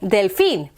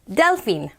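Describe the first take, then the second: First: The stress is on the last syllable. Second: The stress is on the first syllable. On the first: The speaker calls it right. "that's where you put the emphasis on the syllable" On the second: The speaker calls it wrong. "not delphine"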